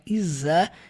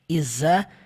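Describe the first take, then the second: First: The consonant is a buzzed z sound. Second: The same.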